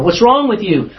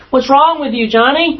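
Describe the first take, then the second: First: Higher, sharp demand, imitating a parent; a touch of an exasperated parent; impatient parent. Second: A mock furious parent pressing the child; escalating parent. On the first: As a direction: snap the question at the kid. Parent interrogating a child. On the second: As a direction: push harder, losing patience with Johnny.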